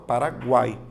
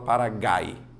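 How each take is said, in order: First: The U after the G is clearly pronounced. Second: The U after the G is not pronounced. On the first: The speaker calls it right. "a letra U, ela é pronunciada" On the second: The speaker calls it wrong. "Você fala Paraguai ou você fala Paraguai?"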